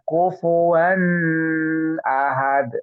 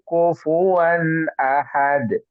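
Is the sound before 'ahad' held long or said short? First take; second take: long; short. First: The sound before 'ahad' is held long. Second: The sound before 'ahad' is said short. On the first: The speaker calls it wrong. "Dia baca kufuwan ahad. Lah, keliru ya" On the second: The speaker calls it right. "Seperti itu langsung"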